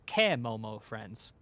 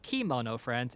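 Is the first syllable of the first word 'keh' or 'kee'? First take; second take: keh; kee. First: The first syllable sounds like 'keh'. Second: The first syllable sounds like 'kee'. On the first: The speaker calls it right. "It's kemomo friends" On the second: The speaker calls it wrong. "it's not kimono friends"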